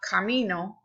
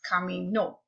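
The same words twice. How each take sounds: First: The stress falls before the last syllable. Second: The stress falls on the last syllable. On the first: I walk, in the present. The speaker calls it wrong. "It's not camino, which is I walk in the present tense" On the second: Someone walked, in the past. The speaker calls it right. "you do put the stress where the accent mark tells you"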